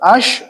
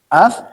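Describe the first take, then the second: First: The word ends with an s sound. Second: The word ends with a soft th sound. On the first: The speaker calls it wrong. "bukan ash" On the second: The speaker calls it right. "tapi ath"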